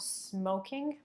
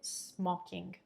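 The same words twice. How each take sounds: First: The O vowel is closed and English-like. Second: The O vowel is opened up and rounder. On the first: The speaker calls it wrong. "It's not smoking" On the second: The speaker calls it right. "it's opened up a bit"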